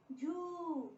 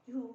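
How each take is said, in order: First: झू higher, with a long held oo; long u vowel. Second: झू with a brief oo; short u vowel. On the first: Teacher drilling the jh series, long vowel in झू. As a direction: stretch the oo in झू. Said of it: "बड़ी ऊ की मात्रा". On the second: Teacher drilling the jh series, short vowel in झू. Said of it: "छोटी ऊ की". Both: Shown as a demonstration.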